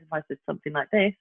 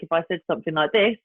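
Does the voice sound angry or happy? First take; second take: happy; angry. First: The tone sounds light, kind and happy. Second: The tone sounds frustrated and a little angry. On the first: The speaker is happy. "you can hear the difference in the tonality" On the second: The speaker is annoyed. "potentially you could say I'm a little bit frustrated or I'm a little bit angry"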